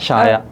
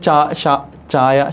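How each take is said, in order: First: The word begins with an sh sound. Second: The word begins with a ch sound. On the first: This is the local dialect form. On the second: This is the standard form of the word.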